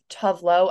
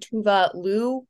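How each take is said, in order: First: The name is said with an American pronunciation. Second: The name is said with a Swedish pronunciation. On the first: The speaker calls it wrong. "I know that's like the American, I said that because I think most Americans pronounce it that way" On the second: The speaker calls it right. "but I think it's actually Tuvalu"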